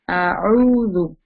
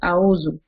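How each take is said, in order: First: The middle consonant is a deep throat ayn. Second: The middle consonant is a light glottal stop. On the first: The speaker calls it right. "No, it's not a'u. It's a'udhu" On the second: The speaker calls it wrong. "people make mistake. They say a'udhu"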